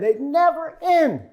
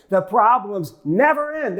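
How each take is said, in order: First: High, slow, drawn-out complaint; mock despairing wail; wailing high lament. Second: Said in the usual way. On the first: Shown as a demonstration. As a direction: stretch it up high like a weary moan.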